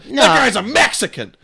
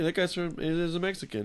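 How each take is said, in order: First: It is said harshly in a hostile tone. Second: It is said casually in a neutral tone. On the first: The remark is racist. The speaker calls it wrong. "Then it's racist" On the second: The remark is harmless. The speaker calls it right. "it's fine"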